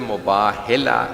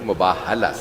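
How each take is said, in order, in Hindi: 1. h के बाद का स्वर 'i' है। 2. h के बाद का स्वर 'a' है। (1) "लफ्ज़ मुबाहिला सही नहीं" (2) "मुबाहला सही"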